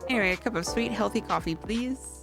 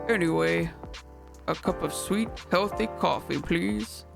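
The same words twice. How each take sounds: First: It is said in an ordinary speaking voice. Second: It is said in a deep, put-on manly voice.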